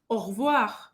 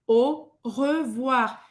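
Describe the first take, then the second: First: The vowel after r is almost dropped. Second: The vowel after r is clearly pronounced. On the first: "Parece que ele nem existe" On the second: "você vai fazer a boca do O e vai falar E"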